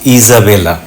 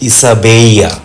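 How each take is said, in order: First: The double l is sounded as l. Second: The double l is sounded as y. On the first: "ইংরেজিতে ইজাবেলা" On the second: "জোড়া এল উচ্চারণে হয়ে গেল ওয়াই"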